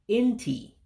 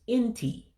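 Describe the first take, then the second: First: The pitch jumps up sharply at the end. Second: The pitch jumps up sharply at the end.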